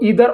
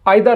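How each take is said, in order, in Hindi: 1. इस शब्द की शुरुआत 'ee' वाले स्वर से होती है। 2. इस शब्द की शुरुआत 'eye' वाले स्वर से होती है।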